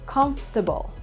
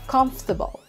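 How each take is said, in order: First: The middle syllable 'for' is left out. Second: The middle syllable 'for' is left out.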